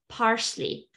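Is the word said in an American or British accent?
American. It is said in an American English accent. "American English"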